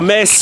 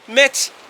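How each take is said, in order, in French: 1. Le mot finit par un s simple. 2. Le mot finit par un son ts.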